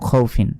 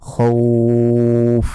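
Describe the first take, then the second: First: The vowel is short and the word ends in -in. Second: The vowel is stretched and the ending is dropped. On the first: The reader carries on without stopping. "যদি এখানে না থামি তাহলে কিন্তু এই দুই জেরের উচ্চারণ হবে এবং এখানে কোনো টেনে পড়া যাবে না" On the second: The reader stops at this word. "থামলে খাউফ, এইভাবে পড়তে হবে।"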